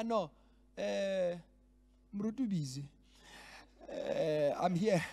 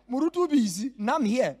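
First: Offhand, casual brush-off of the absent pastor; lightly voiced careless stand-in; wry mock of a self-important delegate; mocking dismissive delegate. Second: Loud, laughing mock of a proud stand-in; louder, laughing send-up of the boastful delegate; mocking arrogant delegate. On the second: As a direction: ham up the self-important delegate. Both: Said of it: "That's how it sounds".

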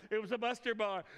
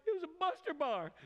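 First: Said in the usual way. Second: High, choked-up retelling of the moment; tearful. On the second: Retold or imitated. Preacher reliving his tearful memory, choked up. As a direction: voice rising as the tears come. Tearful realization at breakfast table.

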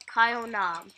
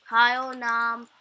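First: Said in the usual way. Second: "Kyle Nam" said slowly and louder; slow emphatic name. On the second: Shown as a demonstration. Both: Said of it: "you can come and subscribe to me".

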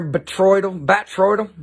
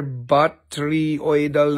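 First: "Batroidal" said higher in a loose, slurred put-on voice; word in the joke voice. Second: "Batryoidal" sounded out very slowly, syllable by syllable; careful try at a hard word. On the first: Seller re-saying the mineral term in his joke voice. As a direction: toss off "Batroidal" casually in the dude voice. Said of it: "When I talk like this". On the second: Seller struggling to pronounce a mineral term, slow careful try. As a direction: drag "Batryoidal" out slowly, trying to get it right. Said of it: "a very big word that I cannot say very easily".

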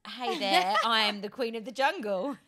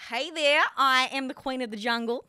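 First: Lightly done Australian accent. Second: Loud, confident Australian accent. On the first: Host setting a line for the guest, Australian accent. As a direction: try an Australian greeting. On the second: Guest copying the host's line on request, Australian accent. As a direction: belt it out in Australian. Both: Shown as a demonstration. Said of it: "And Australian".

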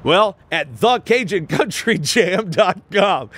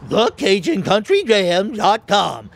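First: Big radio-ad announcer call-out. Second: Slow, higher cartoon dog voice; Scooby-Doo voice. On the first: Pretend. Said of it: "Do I sound like an announcer?". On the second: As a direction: talk like the Great Dane cartoon dog. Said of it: "Tell us in Scooby".

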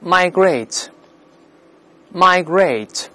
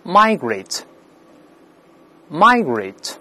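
First: "migrate" with the stress on the second syllable, -GRATE; British end stress. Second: "migrate" with the stress on the first syllable, MI-; American front stress. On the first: Teacher models British "migrate" for the class, stress on the second syllable. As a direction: say "migrate" British-style, leaning on the last syllable. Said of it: "英式发音重音在后面". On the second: Teacher models American "migrate" for the class, stress on the first syllable. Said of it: "那美式发音重音在前面". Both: Shown as a demonstration.

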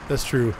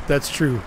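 The two takes are said the same way.

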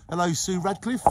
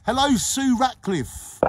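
First: Said in the usual way. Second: High, slow sung hello; sing-song greeting. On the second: Shown as a demonstration. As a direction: croon the hello out. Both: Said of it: "I can't say that name".

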